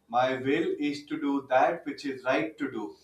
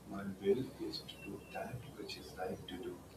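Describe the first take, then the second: First: It is said loudly. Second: It is said softly.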